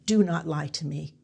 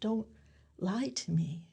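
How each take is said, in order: First: It sounds like accusing someone. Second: It sounds like begging someone.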